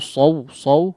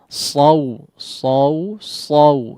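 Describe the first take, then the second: First: The vowel glides straight into w, rushed. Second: The a-vowel is sounded clearly before the w. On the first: The speaker calls it wrong. "jangan langsung saw saw ya" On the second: The speaker calls it right. "fathahnya diperjelas dulu"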